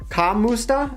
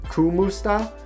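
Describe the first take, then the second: First: The first vowel sounds like 'a'. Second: The first vowel sounds like 'oo'. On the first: "Does it sound like an A?" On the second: "someone said Kumusta"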